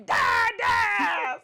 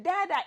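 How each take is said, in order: First: High, loud demanding yell of Dad, dad; aggressive toddler shout. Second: Said in the usual way. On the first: Retold or imitated. Toddler always calling his dad, loud aggressive "Dad, dad!". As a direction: bellow "Dad, dad!" like a rough-playing toddler. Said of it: "he's so aggressive". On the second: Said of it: "it's never just".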